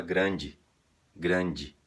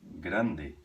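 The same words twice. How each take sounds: First: "grande" ending in "i"; Brazilian grandi. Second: "grande" with a clear final e; Spanish grande. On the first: Retold or imitated. Teacher showing how Brazilians say grande. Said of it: "A gente fala". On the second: Shown as a demonstration. Teacher giving the Spanish word as an example. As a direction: end "grande" on a pure e. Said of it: "Por exemplo".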